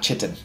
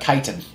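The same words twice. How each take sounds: First: The word sounds like 'kidding' with a ch. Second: The word does not sound like 'kidding'. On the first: The speaker calls it wrong. "not chitin" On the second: The speaker calls it right. "it turns out chitin"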